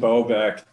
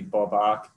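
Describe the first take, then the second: First: The name is said with an English pronunciation. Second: The name is said with a Polish pronunciation. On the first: This is the name he goes by here. "the first way, I suppose" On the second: This is the original form of the name. "actual Polish pronunciation would be"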